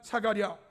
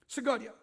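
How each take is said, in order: First: The first syllable is sa. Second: The first syllable is seu. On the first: This is the form used in theology. "신학적인 발음이고" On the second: This is the Old Testament form. "구약적 발음은 스가랴예요"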